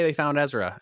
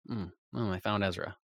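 First: The voice sounds excited and happy. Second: The voice sounds flat and let down. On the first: The news is welcome. "I was like, yay" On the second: The news spoils something. "And then I was like"

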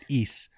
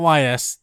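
First: The name is said as one word, like ease. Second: The name is spelled out as two letters. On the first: The speaker calls it right. "That's how you say it" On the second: The speaker calls it wrong. "I was wrong. It's not YS. That's just the two letters in it"

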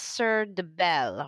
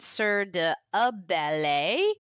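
First: The 'de' runs straight into the following noun. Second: The 'de' is a separate syllable before the noun. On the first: The speaker calls it right. "you taught me earlier that it's" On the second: The speaker calls it wrong. "I was mispronouncing it for a while. I was going"

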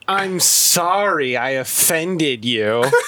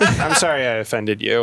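First: The apology is spoken in a sarcastic tone. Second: The apology is spoken in a sincere tone. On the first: The apology is not meant. "not a joke, but sarcastic" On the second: The apology is genuinely meant. "this is sincere"

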